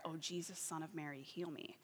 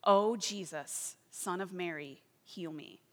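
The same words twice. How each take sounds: First: Softer, murmured prayer; soft repeated prayer. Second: Slow, drawn-out pleading prayer; slow earnest prayer. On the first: Praying over and over alone, softly murmured. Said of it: "she would pray this prayer". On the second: Praying to Jesus for healing, slow and pleading. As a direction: plead slowly, leaning on each name. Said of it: "she began praying in his name". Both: Retold or imitated.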